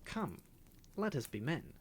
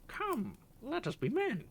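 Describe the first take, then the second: First: Imitating the parrot. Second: High, loud parrot squawk; squawking parrot cry. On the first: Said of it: "involuntarily imitating the chatter of the parrot". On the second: Acted. Parrot crying out as the cat pursues the canary. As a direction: screech the catchphrase. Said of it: "flapped his wings and cried".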